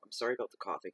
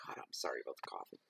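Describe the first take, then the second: First: Said in the usual way. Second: Muttered aside. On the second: Real, not acted. Repeated apology muttered low and fast.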